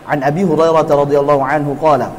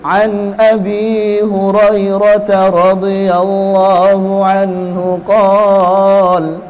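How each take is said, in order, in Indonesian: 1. Dibaca biasa saja, seperti percakapan sehari-hari. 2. Dibaca dengan dipanjang-panjangkan, dengan lantunan yang melodis. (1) "biasa, kayak orang ngobrol, kayak orang ceramah" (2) "nggak perlu"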